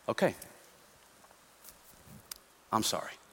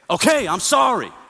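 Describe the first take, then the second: First: The apology sounds soft and sincere. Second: The apology sounds harsh and forceful. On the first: The speaker genuinely regrets the wrong. "and humility" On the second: The speaker is angry while apologizing.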